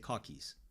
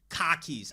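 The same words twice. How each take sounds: First: It is said in a New York accent. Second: It is said in a Boston accent. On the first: "I say car keys" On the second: "Boston is like car keys"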